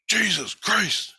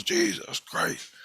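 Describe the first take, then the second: First: Slow, higher, drawn-out "Jesus Christ"; imitating a friend starting to panic; freaking out. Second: Very high, breathless whisper of "Jesus Christ"; mock terrified whisper; freaking out. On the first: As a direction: stretch "Jesus Christ" out, spooked. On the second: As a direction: gasp "Jesus Christ" out slow and airy in terror. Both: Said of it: "he just freaks out".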